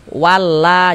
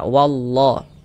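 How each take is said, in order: First: The L is light and thin. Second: The L is heavy and thick. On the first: The speaker calls it wrong. "wala jangan" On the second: The speaker calls it right. "kita tebalkan wallah"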